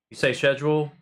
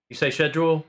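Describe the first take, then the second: No difference in how they are said.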